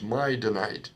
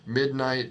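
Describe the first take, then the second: First: The first syllable is open, sounding 'my'. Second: The first syllable ends in d, sounding 'mid'. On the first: The speaker calls it wrong. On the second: The speaker calls it right.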